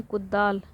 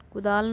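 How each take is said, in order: First: कुदाल with a doubled द, kud-daal; corrected form. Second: कुदाल with a single short द; everyday form. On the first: Teacher giving the correct word, कुदाल with doubled द. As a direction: hold the d in कुदाल before the long aa. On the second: Teacher rejecting the everyday word, कुदाल with single द. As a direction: say कुदाल lightly, no doubled d. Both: Shown as a demonstration. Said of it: "कुदाल नहीं".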